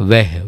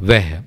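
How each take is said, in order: First: The vowel sounds like 'e' in 'veh'. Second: The same.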